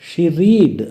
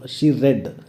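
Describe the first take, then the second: First: The verb has a long ee vowel, like reed. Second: The verb has a short e vowel, like red. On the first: It sounds like the present tense. The speaker calls it wrong. "She రీడ్ అనకూడదు" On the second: It marks the past tense. The speaker calls it right. "రెడ్"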